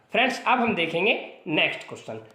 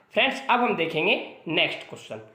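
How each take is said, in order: The two takes are said the same way.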